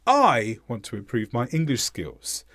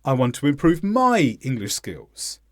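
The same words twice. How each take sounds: First: Highlight "I" only, leave "my" unstressed; stress on I. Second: Highlight "my" and keep "I" unstressed; stress on MY. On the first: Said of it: "We don't need to stress both words". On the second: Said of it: "So we could also have said". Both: Shown as a demonstration.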